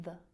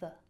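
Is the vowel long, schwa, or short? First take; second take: schwa; schwa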